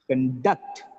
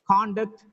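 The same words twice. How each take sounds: First: The stress is on the second syllable. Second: The stress is on the first syllable. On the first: It is used as a verb. "The next one is verb" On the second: It is used as a noun. "First is noun"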